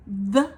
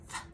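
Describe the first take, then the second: First: "The" buzzed firmly and louder; louder voiced th. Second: "th" breathed softly with no voice. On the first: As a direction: voice it hard against the teeth. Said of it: "See how that's louder than th". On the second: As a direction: whisper the th lightly. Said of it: "the softer one is th". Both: Shown as a demonstration.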